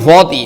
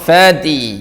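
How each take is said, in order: First: The 'fa' is heavy, with a rounded 'o' vowel. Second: The 'fa' is light, with a clear 'a' vowel. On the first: The speaker calls it wrong. "ഫോത്തി ഫോത്തി no" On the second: The speaker calls it right. "No ഫാത്തി"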